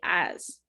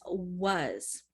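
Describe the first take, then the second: First: The word starts directly with a vowel. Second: The word starts with a W sound. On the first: The speaker calls it wrong. "they just remove the W and they say as" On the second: The speaker calls it right. "but it's was"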